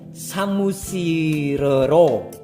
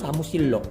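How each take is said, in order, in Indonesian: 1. Ada vokal tambahan sebelum 'ro' terakhir. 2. Tidak ada vokal tambahan sebelum 'ro' terakhir. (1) "ribet pelafalannya" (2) "lebih enak pelafalannya samusillo"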